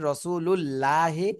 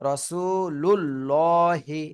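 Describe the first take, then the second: First: The l sound in Allah is thin and light. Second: The l sound in Allah is heavy and full. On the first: The speaker calls it wrong. "চিকুন করে পড়তেছেন, এজন্য ভুল হবে" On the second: The speaker calls it right. "এভাবে মোটা করে পড়তে হবে"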